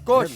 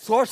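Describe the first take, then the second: First: The word begins with an sk sound. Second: The word begins with a plain s sound. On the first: The speaker calls it right. "അല്ല സ്കോഷ്" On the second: The speaker calls it wrong. "സോഷ് അല്ല"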